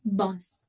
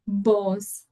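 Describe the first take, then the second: First: The vowel sounds like a short u. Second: The vowel sounds like an o. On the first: The speaker calls it right. "It's bus" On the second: The speaker calls it wrong. "it's not boss as in an O"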